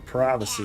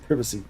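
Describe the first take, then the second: First: The word is said with an American pronunciation. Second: The word is said with a British pronunciation. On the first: "We say privacy. America" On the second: "Not privacy"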